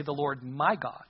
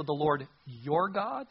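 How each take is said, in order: First: "my" leaned on, slow delivery; slow down and point up "my"; stress on MY. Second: "your" drawn out slowly, rising into "God"; stress on YOUR. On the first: Preacher gives the personal phrase Saul avoided, stress on "my". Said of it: "Why wasn't it personal enough". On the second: Preacher flags Saul's distant phrase to Samuel, stress on "your". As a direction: linger on "your", end questioning. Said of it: "this phrase, notice". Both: Acted.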